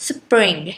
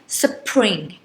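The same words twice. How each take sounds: First: The p has no puff of air. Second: The p has a strong puff of air. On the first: The speaker calls it right. "the correct way to pronounce it is spring" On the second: The speaker calls it wrong. "by using the p, the aspirated"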